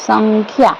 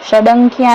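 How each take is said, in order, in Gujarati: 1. શબ્દ 'san' અવાજથી શરૂ થાય છે. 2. શબ્દ 'shad' અવાજથી શરૂ થાય છે. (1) "સંખ્યા વાંચવાનું છે" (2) "ષડંખ્યા નહીં વાંચવાનું"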